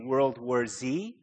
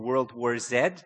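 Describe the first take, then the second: First: The letter Z is said as 'zee'. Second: The letter Z is said as 'zed'. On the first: This is the American way of saying it. "depending if you're an American" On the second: This is the Canadian way of saying it. "or a Canadian"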